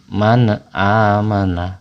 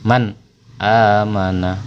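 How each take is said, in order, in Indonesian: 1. Bunyi n memantul dengan vokal tambahan setelahnya. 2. Bunyi n tersambung dengan bersih, tanpa vokal tambahan. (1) "seakan-akan seperti huruf qalqalah" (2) "Jadi dibaca jelas, tidak boleh ada pantulan"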